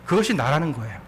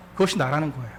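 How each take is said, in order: Both takes have the same delivery.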